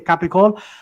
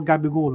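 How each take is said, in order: First: The word begins with a voiceless k sound. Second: The word begins with a voiced g sound. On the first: This is how people in Italy say it. "in Italy you say capicol" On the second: This is how Italian Americans say it. "in the States they go gabigol"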